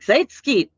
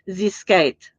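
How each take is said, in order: First: The name starts with 'zeit', like 'Zeitgeist'. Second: The name starts with a short plain 'z' sound. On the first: The speaker calls it wrong. "I totally mispronounced Z Zskite" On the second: The speaker calls it right. "instead of calling him Zskite"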